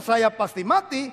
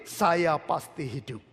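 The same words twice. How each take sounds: First: Drawn-out wrong take, said slowly; slow gloomy confession. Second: Slow, softer, lower confession of life; calm confident faith. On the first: Preacher mocking a gloomy believer, slow. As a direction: say the doomed line slowly, as the bad example. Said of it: "Daripada ngomong". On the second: Preacher modelling the right words for the congregation, calm and slow. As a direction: say "Saya pasti hidup" slowly and calmly, lower and softer. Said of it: "bilang begini". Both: Shown as a demonstration.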